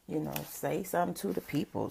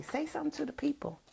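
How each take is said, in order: First: Said in the usual way. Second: Put-on higher and fast, gently urging a child; a grandma prompting her grandson, higher and faster; coaxing a grandson. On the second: Shown as a demonstration. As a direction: nudge the little one to speak up, quick and high. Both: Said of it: "I do my grandson like that".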